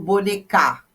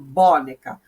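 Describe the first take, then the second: First: The stress is on the last syllable. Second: The stress is on the first syllable. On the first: "não falo bonecar" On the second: "Se eu falasse, a sílaba tônica seria o bom"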